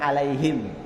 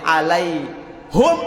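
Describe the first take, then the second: First: The vowel after the h is i. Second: The vowel after the h is u.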